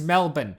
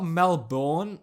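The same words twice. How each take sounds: First: It is pronounced the Australian way. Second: It is pronounced the American way. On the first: The speaker calls it right. "it's pronounced Melbourne" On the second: The speaker calls it wrong. "however you fucking Americans pronounce it"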